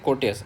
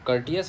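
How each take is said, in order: First: The word is said like 'core-tess'. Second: The word is said like 'cur-tee-us'. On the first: This follows the spelling to help remember it. "बाकी हम लोग बोलेंगे इसको कोर्टेस" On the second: This is how the word is really pronounced. "एक्चुअल में इसको बोलते हैं I think कर्टियस"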